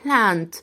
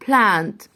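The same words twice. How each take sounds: The two takes are said the same way.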